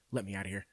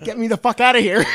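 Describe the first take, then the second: First: Low, soft, eerily calm demand; super calm. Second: Loud, high mock yell breaking into laughter; frantic demand. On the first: Retold or imitated. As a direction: imitate a creepily composed plea, barely raised. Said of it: "super calmly is just like". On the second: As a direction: act out losing all composure, half laughing. Acted plea turns frantic, versus calm.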